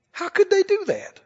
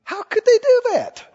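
First: Self-righteous outrage, higher. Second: A shocked, superior church voice, pitched way up; high, scandalised mock outrage; mock self-righteous gasp, much higher. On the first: Retold or imitated. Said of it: "You'll hear it in things like this". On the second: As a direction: sneer it from on high like a holier-than-thou saint. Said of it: "Did you hear me?".

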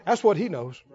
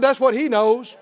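First: Said in the usual way. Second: "what" lifted, louder repeat, ending on a rise; stress on what. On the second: Shown as a demonstration. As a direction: hit "what" harder on the repeat. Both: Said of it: "I said".

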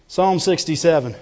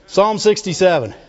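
Both takes have the same delivery.

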